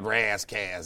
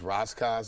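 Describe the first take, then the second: First: Ras is said with a Californian twang. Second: Ras is said as in Rastafarian. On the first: The name reflects a California identity. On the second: The name follows its original cultural source.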